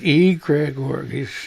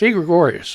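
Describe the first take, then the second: First: The word is said slowly. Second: The word is said quickly. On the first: "when you read it, it's like" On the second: "If you say it fast"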